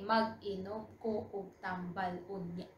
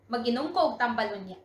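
First: Said in the usual way. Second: Fast, words run together; quick fluent repeat. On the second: Shown as a demonstration. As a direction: rattle the sentence off fluently. Same sentence repeated at fluent speed.

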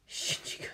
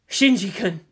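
First: Barely audible, all breath; faint whisper. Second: Said in the usual way. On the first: Acted. Captive woman thinking of the boy, faintly whispering. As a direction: whisper the name to yourself. Captive murmurs the boy's name.

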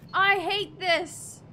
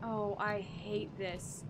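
First: Loud, slow, frustrated cry; exasperated outburst. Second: Low, slow muttered dread. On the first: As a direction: let the dread burst out loud. Dread building to outburst. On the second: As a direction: groan it under your breath. Dreading the scary section. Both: Real, not acted.

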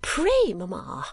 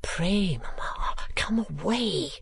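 First: Daughter's higher-pitched entreaty; urgent plea. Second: Urgent whispered plea; hushed, pleading aside. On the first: Acted. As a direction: plead sharply on the first word, dropping on the second. Daughter repeats her plea more urgently. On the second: A narrator's reading. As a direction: whisper it as a daughter coaxing her mother. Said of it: "whispered Kate".

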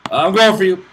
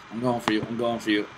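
First: Loud, higher-pitched call to attack; battle call. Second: Said in the usual way. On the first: Real, not acted. Gamer announces an attack on an opponent, calling out loudly. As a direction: call it out loudly as you charge.

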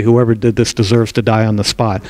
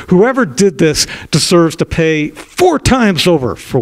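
First: Said in the usual way. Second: Retold verdict. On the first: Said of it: "he didn't say". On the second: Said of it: "David becomes furious".

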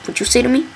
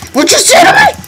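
First: Said in the usual way. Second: Screamed high indignant challenge; mock outrage. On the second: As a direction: shriek it like picking a fight. Yelling at a game cow.

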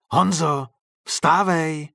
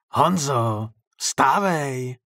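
First: Raised, higher wake-up call; insistent loud call from behind a door; louder call. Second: Hoarse wake-up call through a door; rough-voiced call. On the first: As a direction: call louder to rouse the sleeper. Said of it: "zopakoval ten někdo hlasitěji". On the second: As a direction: call out hoarsely to rouse a sleeper. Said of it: "ozvalo se zpoza dveří chraplavým hlasem". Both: A narrator's reading.

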